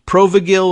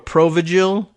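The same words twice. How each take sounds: First: The g is pronounced hard, as in go. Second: The g is pronounced soft, as in gel. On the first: "whether the G in it was hard or soft sounding" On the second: "whether the G in it was hard or soft sounding"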